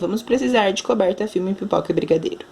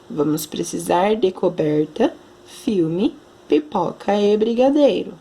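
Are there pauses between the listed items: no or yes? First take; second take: no; yes. First: The items run together with no pauses. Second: There is a short pause after each item. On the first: The speaker calls it wrong. "Não é certo você ler" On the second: The speaker calls it right. "nós precisamos dar a pausa"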